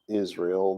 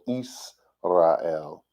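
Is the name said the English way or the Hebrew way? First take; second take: English; Hebrew. First: It is said with an English pronunciation. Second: It is said the Hebrew way, slowly, broken up. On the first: "we call that Israel these days" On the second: "I say it's slow for you guys"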